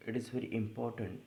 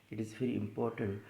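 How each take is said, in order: Both takes have the same delivery.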